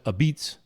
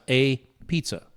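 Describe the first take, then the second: First: It is said with a 'b', ending like 'beets'. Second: It is said as spelled, ending in 'pizza'. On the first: "they pronounce it a beats" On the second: "if you look at the sign, it's a pizza"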